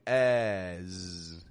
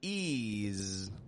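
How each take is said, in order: First: The vowel is low with the jaw dropped. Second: The vowel is high and tense, like 'ease'. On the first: "Nor are we dropping our jaw down, going as" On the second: "our tongue is not making pressure on the top teeth, of course. We're not giving it an ease"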